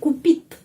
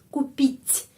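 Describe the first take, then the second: First: The final t is hard and plain. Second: The final t is soft, close to a ch. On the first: The speaker calls it wrong. "Kalau di sini tidak ada tanda pelemah, jadi купит. Tapi jangan" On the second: The speaker calls it right. "T menjadi lemah, lemas"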